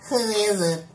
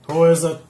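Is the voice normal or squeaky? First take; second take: squeaky; normal. First: It is said in a squeaky voice. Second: It is said in a normal voice.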